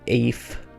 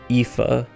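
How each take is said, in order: First: The middle consonant is an F sound. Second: The middle consonant is a V sound. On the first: The speaker calls it wrong. "as much as you look at it and think" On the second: The speaker calls it right. "these are pronounced like V's"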